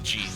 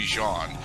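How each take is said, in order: First: The name is said with English pronunciation. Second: The name is said with French pronunciation. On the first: The speaker deliberately ignores the original pronunciation. "I pronounce it Jean because you know fuck French" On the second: This is how the name is meant to be said. "it's supposed to be Jean"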